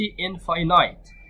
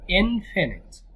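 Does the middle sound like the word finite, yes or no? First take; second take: yes; no. First: The middle is pronounced like the word finite. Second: The middle is not pronounced like finite. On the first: The speaker calls it wrong. "ما بقولش infinite" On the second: The speaker calls it right. "بقول infinite"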